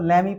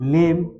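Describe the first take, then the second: First: It ends with an extra ee vowel sound. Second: It ends on the m with no vowel. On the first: The speaker calls it wrong. "मगर लेमी सेमी पढ़ना हमारा क्या हो जाएगा, गलत हो जाएगा।" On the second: The speaker calls it right. "ई का बिल्कुल उच्चारण साइलेंट रखते हैं।"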